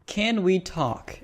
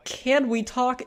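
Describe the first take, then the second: First: Slow, falling mock of "Can we talk?" with weight on "can"; sarcastic slow "Can we talk?"; mocking repeat. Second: High, rising "Can we talk?" with "can" stressed; incredulous high "Can we talk?"; mocking repeat. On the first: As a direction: drag out "Can we talk?" slowly, dropping at the end. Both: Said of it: "he just goes on and says".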